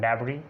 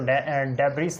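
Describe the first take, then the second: First: The word ends without an S sound. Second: The word ends with a sounded S. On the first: The speaker calls it right. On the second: The speaker calls it wrong. "इसको डेबरीज नहीं पढ़ना"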